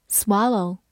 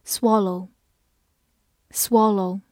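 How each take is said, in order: First: American-accented "swallow"; American pronunciation. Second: Said in the usual way. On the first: Shown as a demonstration. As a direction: open "ah" in the first syllable of "swallow", American-style. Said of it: "美式发音". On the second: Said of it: "美式发音swallow".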